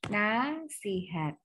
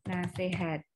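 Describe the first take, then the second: First: It is said in the full standard form. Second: It is said in the casual colloquial form. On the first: The speaker calls it right. "Bakunya adalah nasihat" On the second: The speaker calls it wrong. "kata yang tidak baku itu apa? ... Betul, nasihat"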